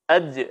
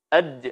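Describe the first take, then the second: First: The final consonant is released with a bouncing echo. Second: The final consonant is released with a bouncing echo.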